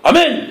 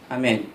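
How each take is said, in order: First: It is said loudly and forcefully. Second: It is said quietly and weakly.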